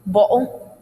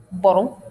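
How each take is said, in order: First: BOTTLE with a glottal stop for tt; casual "bo'le"; informal dialect. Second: BOTTLE with the t sounded by the tongue; careful BOTTLE, no glottal stop; formal dialect. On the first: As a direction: catch the t of BOTTLE in the throat. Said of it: "if you're informal". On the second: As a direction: articulate the tt in BOTTLE. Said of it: "if you're formal". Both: Shown as a demonstration.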